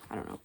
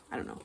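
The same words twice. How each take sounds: The two takes are said the same way.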